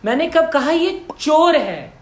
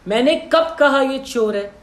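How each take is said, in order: First: The stress is on चोर. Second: The stress is on कब.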